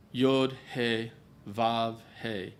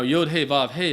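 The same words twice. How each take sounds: First: Slow, deliberate Yod He Vav He. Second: Said in the usual way. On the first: Shown as a demonstration. Preacher revealing the name to listeners, slow reveal. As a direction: lay out Yod He Vav He letter by letter. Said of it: "what do you end up with". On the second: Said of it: "the word we know as Yahweh".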